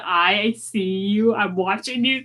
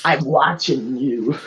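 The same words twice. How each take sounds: First: Suspicious warning. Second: Slow, drawn-out mock menace; mock suspicion. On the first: Pretend. Player eyeing a stranger, mock suspicion. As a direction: draw the words out, keeping watch. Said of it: "narrow my eyes slowly and do". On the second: Game master echoing the watching bit, mock menace. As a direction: echo it slowly like a warning.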